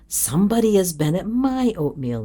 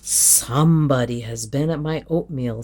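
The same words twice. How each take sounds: First: It is said in a medium, moderate voice. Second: It is said in a big, rough, gruff voice. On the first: The middle-sized bear is speaking. "in her middle voice" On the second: The biggest bear is speaking. "in his great rough gruff voice"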